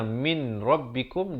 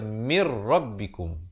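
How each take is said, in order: First: The n sound is pronounced before the r. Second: The n sound merges into the r sound. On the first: "Asalnya min rabbikum" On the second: "jadi baca mir rabbikum"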